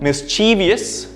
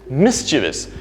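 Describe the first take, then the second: First: The word is said with four syllables. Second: The word is said with three syllables. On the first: The speaker calls it wrong. "we add a syllable there. There are one, two, three, four syllables" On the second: The speaker calls it right. "the first syllable being stressed, and there are only three syllables"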